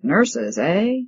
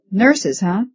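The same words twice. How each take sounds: First: Mild mock of his sneering question; imitating the janitor. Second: A hint of a mocking janitor, raised pitch; lightly voiced skeptical janitor. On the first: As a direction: parody the janitor lightly, close to her own voice. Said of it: "imitating his voice". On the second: A narrator's reading. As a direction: ask it like a doubtful caretaker teasing. Janitor sneers at women doctors.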